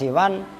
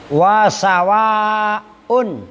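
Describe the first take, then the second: First: A short i vowel follows the s. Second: A long a vowel follows the s. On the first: "bikasris sini wal qasri, dengan dibaca kasroh sinnya dan dibaca kosor" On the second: "bifathhiha, dengan dibaca fathah sin, wal maddi, dan dibaca panjang"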